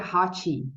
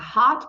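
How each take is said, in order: First: The final T becomes an extra 'ch' sound. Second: The final T is soft with no extra sound. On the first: The speaker calls it wrong. "pronuncia hot" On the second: The speaker calls it right. "ao invés de pronunciar hot"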